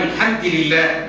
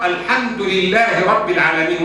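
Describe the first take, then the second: First: الحمد read as al-ħamdi, kasra on the dal; slow, say الحمد with a final i; الحمد لله, dal voiced with kasra. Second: Said in the usual way. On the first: Shown as a demonstration. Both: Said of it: "بكسر الدال".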